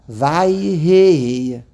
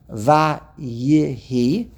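First: The word has two syllables, vay-hi. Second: The word has three syllables, va-ye-hi. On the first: "Noch, the yud was part of the vav. Vay" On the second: "The yud should stand on its own"

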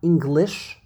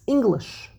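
First: The stress is on the second syllable. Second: The stress is on the first syllable. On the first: The speaker calls it wrong. "it's not English" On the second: The speaker calls it right. "the emphasis is on the first syllable"

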